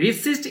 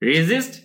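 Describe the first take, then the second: First: The middle consonant is a hissing s sound. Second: The middle consonant is a buzzing z sound. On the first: The speaker calls it wrong. "রেসিস্ট এরকম না" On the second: The speaker calls it right. "জয়ের মধ্যে উচ্চারণ হচ্ছে রেজিস্ট"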